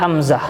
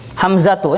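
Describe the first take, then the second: First: The word ends in a soft h sound. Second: The word ends in a full tu syllable. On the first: The speaker stops on the word. "Kita sukunkan jadi hamzah" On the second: The word is read with its full ending. "Hamzatu ini tak marbutoh"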